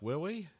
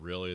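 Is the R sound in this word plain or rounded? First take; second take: rounded; plain. First: The R sound is rounded like a W. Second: The R sound is plain and unrounded. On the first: "the guys who round their R's" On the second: "Instead of really"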